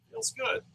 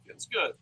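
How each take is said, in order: First: Mock bliss. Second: Said in the usual way. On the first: Shown as a demonstration.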